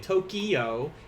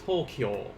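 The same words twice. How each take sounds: First: The ending kyo is split into two syllables. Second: The ending kyo is said as one syllable. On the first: The speaker calls it wrong. "an English speaker would say" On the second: The speaker calls it right. "that kyo at the end is supposed to be one syllable"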